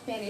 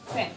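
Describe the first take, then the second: First: The p is said without a puff of air. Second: The p is said with a puff of air. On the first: The speaker calls it wrong. "It's not পেন" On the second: The speaker calls it right. "It's পি এইচ"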